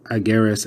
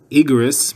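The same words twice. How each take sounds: First: "Ageres" said opening on an a sound; the right reading "Ageres", a at the start; correct pronunciation. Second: "Igeres" said louder, opening on a short i; the misreading "Igeres", i sound at the start; wrong pronunciation. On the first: Teacher gives the proper reading "Ageres". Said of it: "it should be as". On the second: Teacher shows how "Igeres" would sound by mistake. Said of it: "would be pronounced as". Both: Shown as a demonstration.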